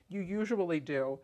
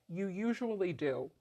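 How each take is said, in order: Both takes have the same delivery.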